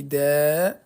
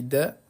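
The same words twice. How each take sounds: First: "Da" with the vowel drawn right out; teacher stretching "Da" into a long syllable. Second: "Da" with a short vowel; teacher's short demo syllable "Da". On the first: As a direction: hold the a of "Da" long and slow. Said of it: "je vais rajouter des voyelles longues". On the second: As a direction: say "Da" briefly, no held vowel. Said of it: "je vais ajouter des voyelles courtes". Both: Shown as a demonstration.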